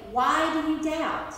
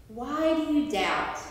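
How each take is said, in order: First: Said in the usual way. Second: A gentle, searching question with no reproach; gently questioning. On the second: Shown as a demonstration. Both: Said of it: "Not scolding him, but questioning him".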